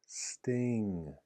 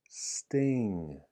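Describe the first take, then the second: The two takes are said the same way.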